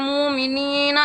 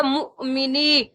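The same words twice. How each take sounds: First: مومنین with a long moo, no catch; common wrong reading. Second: مؤمنی with short mu and long nee; corrected reading. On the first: Teacher mimics common mistake, drawn-out smooth مومنین. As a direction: glide through مومنین, stretching it, without a stop. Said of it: "اکثر پڑھتے ہیں". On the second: Teacher corrects students, caught mu and long ending in مؤمنی. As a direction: catch the mu, then stretch مؤمنی. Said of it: "کی آواز آئے گی تو غلط ہو جائے گا". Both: Shown as a demonstration.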